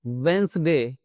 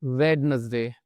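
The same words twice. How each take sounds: First: "वेंसडे" in two syllables, d silent; correct pronunciation. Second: "वेडनेसडे" spelled-out three syllables with d, marked wrong; wrong pronunciation. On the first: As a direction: model "वेंसडे" as "wenzday". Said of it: "इसको हम पढ़ते हैं". (सही उच्चारण, "वेंसडे" दो syllable में) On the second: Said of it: "ना कि". (गलत उच्चारण, "वेडनेसडे" जैसा लिखा है) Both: Shown as a demonstration.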